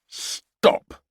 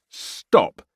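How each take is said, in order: First: Mock drill-sergeant shout; parade ground roar. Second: A second, slightly louder shouted order; yell. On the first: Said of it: "roared in his best parade ground voice". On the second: Acted. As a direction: stop them with a yell. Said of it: "he yelled again".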